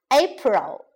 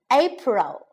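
No difference in how they are said.

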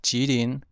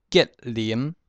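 First: Said in the usual way. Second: 吉林 as "kiat-lîm"; Hokkien reading. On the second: Shown as a demonstration. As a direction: say 吉林 in Hokkien, hard k, stopped t, final m. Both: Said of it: "省份从第一个".

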